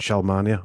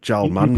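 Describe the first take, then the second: First: It is said in a standard accent. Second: It is said in a Yorkshire accent.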